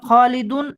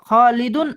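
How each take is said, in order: The two takes are said the same way.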